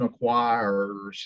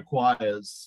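First: Southern American accent with a held, hard R. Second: English accent with a soft, dropped R. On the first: "He holds the line acquires like he's a Southerner. ... He kind of holds that R" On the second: "an Englishman where he would say acquires"

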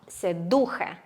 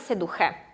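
First: The stress is on the middle syllable. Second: The stress is on the last syllable. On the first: The speaker calls it right. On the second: The speaker calls it wrong. "а не «седухе»"

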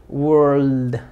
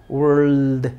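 Both takes have the same delivery.

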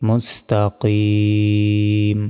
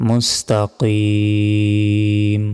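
The two takes are said the same way.

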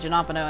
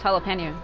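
First: The second syllable starts with an n sound. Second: The second syllable starts with an l sound. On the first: The speaker calls it wrong. "people say Janopano" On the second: The speaker calls it right. "It's jalapeno"

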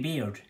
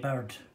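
First: The vowel sounds like 'air'. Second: The vowel sounds like 'ur'. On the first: "So you could have Jamie Baird" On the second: "But Baird is also pronounced as Bird"

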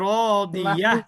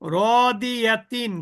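First: The word ends with a short h sound. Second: The word ends with a full t syllable. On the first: The reader stops on this word. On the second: The reader keeps going without stopping.

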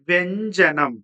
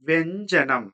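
Both takes have the same delivery.

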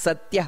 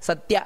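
No difference in how they are said.

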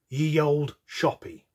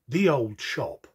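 First: The first word starts with a y sound. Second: The first word starts with a th sound. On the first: The speaker calls it wrong. "the majority would say it's pronounced ye olde shoppy. That's incorrect" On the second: The speaker calls it right. "It's actually pronounced the old shop"

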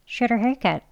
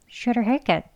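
The two takes are said the same way.

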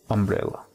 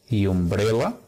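First: The word begins with a soft 'uh' sound. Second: The word begins with a 'you' sound. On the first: The speaker calls it right. "sino umbrella. Es como el sonido de una A suave" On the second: The speaker calls it wrong. "No decimos y umbrella"

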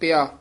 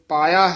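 First: The word is said as 'pia', without the long a. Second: The word is said as 'paia', with a long a. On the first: The speaker calls it wrong. "ਪਿਆ ਕਹਿ ਜਾਂਦੇ" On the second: The speaker calls it right. "ਤੇ ਪਾਇਆ ਹੈ"

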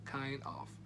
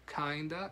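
First: The two words are said fully and separately. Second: The two words are blended into one reduced word.

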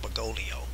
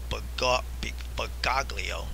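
First: The middle G is left silent. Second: The middle G is pronounced as a hard sound. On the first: It follows the Italian way of saying the name. The speaker calls it wrong. "and not Bergoglio" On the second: It ties the name to Gog. The speaker calls it right. "I pronounce it Jorge Mario Bergoglio"

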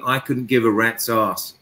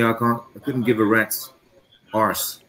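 First: The last word is said without an R sound. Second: The last word is said with an R sound. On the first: "because of my accent" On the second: "You have to pronounce the R"

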